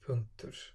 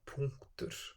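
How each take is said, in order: First: The first vowel is a single plain sound. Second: The first vowel glides between two vowel sounds. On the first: The speaker calls it wrong. "and not punktur" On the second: The speaker calls it right. "Ö becomes u"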